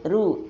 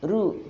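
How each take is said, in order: Both takes have the same delivery.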